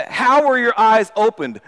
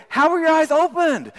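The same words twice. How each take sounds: First: Slow, pressing demand. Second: High and excited, amazed; excited curiosity. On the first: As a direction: interrogate him, slow and firm. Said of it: "they demanded". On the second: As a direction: ask it full of delighted wonder. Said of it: "with excitement or with curiosity". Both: Acted.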